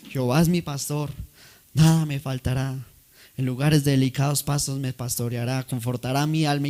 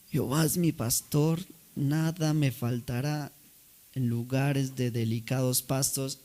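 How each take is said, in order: First: Smooth, polished actor reciting a psalm; eloquent recital. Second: Put-on failing old voice. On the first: Acted. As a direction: recite it like a proud stage actor. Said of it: "tenía una elocuencia". (recitación elocuente de actor) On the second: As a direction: let the voice nearly give out. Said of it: "le fallaba la voz". (voz temblorosa de anciano, suave y lenta)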